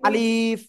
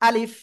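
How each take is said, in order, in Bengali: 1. স্বরটা টেনে লম্বা করে পড়তে হবে। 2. স্বরটা ছোট রাখতে হবে। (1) "যারা এরকম টেনে পড়েছেন তাদের ভুল" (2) "আলিফ টেনে পড়া যাবে না"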